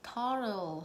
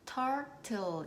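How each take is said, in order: First: The middle t is pronounced weak and soft. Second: The middle t is pronounced as a strong t. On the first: "약하게 turtle 하고 발음하시면 더 좋을 것 같아요" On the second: "turtle 이렇게 트 소리 내서 발음하셔도 괜찮지만"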